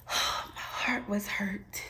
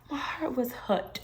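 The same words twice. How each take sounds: First: Whisper. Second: Said in the usual way. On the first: Real, not acted.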